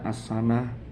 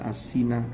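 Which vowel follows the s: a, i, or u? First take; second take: a; i. First: The vowel after the s is a. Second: The vowel after the s is i. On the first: "Bukan dibaca as-sanah" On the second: "bukan dibaca as-sinah"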